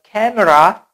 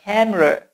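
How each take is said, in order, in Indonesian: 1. Vokal tengah diucapkan sebagai vokal penuh. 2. Vokal tengah direduksi menjadi schwa yang lemah. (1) "Not camera" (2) "but camera"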